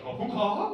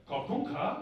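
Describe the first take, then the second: First: Louder rising copycat echo; talking over someone. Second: Mock Asian-accented prayer line; imitated Asian accent. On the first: Retold or imitated. Client trying his best to repeat the monk, loud pitched-up echo. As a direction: parrot it back loudly, higher, over the speaker. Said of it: "over the top of him". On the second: Monk feeding the client the next line, imitated Asian accent. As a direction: mimic the monk's Asian accent, lightly. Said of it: "He's like".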